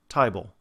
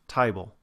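First: It is said in a Cockney accent. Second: The same.

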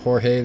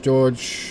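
First: The name is pronounced the Spanish way. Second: The name is pronounced the English way.

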